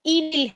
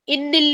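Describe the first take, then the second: First: इनिल with a light single n; the right way, इनिल unstressed n; correct single n. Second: इनिल with a doubled stressed nn; the wrong way, इनिल like inna. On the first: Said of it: "ये इनिल है". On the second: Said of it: "इनिल नहीं है". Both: Shown as a demonstration.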